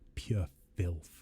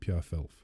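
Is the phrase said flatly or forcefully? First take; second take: forcefully; flatly. First: The phrase is said with strong, forceful emphasis. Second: The phrase is said in a flat, plain way. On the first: The speaker calls it right. "You've got to be like" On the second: The speaker calls it wrong. "you don't just say pure filth"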